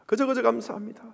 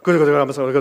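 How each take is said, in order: First: It is said at a normal pace. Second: It is said fast, like speaking in tongues.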